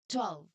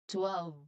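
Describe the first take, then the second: First: The word is said quickly and smoothly. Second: The word is said slowly and carefully. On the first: "Much faster" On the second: "You can say the word really slowly now"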